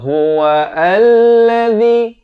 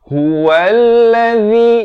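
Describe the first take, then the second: First: The hamzah is sounded, breaking the word apart. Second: The hamzah is silent, linking the word smoothly. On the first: The speaker calls it wrong. "Jangan baca huwallazi, tak betul" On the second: The speaker calls it right. "Dia terus baca huwallazi"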